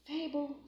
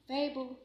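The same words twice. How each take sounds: The two takes are said the same way.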